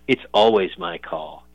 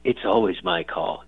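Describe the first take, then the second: First: Slow, lightly voiced action hero line; a hint of a hammy movie tough guy; cheesy movie voice. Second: Slow, lightly hammed action hero line; a touch of a cheesy movie tough guy. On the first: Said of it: "He said it in, like, some cheesy movie voice". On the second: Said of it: "like, some cheesy movie voice".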